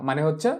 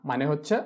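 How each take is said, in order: No difference in how they are said.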